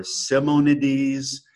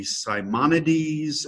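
First: Simonides with a short first vowel, as sih-moh-NEE-deez; alternative pronunciation. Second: Simonides with a long i, as sigh-MON-ih-deez; first pronunciation option. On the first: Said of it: "the pronunciation of his last name". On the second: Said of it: "I guess it could be". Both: Shown as a demonstration.

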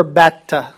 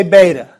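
First: Beta as "BET-tuh"; short-E beta. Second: Beta as "BAY-tuh"; long-A beta. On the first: Teacher gives preferred Erasmian version, short-E beta. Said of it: "I prefer beta". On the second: Teacher allows the common English version, long-A beta. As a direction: say beta with an "ay" vowel. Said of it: "I'm okay if you say beta". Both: Shown as a demonstration.

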